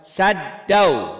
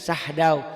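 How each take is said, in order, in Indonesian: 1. d ditahan lama dan digandakan. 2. Bunyi h datang sebelum d tunggal. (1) "dibacanya nyamber dan double" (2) "jangan sahdau"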